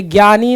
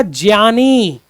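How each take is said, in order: First: ज्ञानी said as "gyani"; "gya" sound in ज्ञानी; common mispronunciation. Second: ज्ञानी said as "jyani"; "jya" sound in ज्ञानी, carefully drawn out; correct pronunciation demo. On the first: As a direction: start ज्ञानी with a hard g plus y. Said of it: "हम लोग गलत पढ़ते हैं". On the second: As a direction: start ज्ञानी with j plus a y glide. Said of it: "इसका सही उच्चारण होगा". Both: Shown as a demonstration.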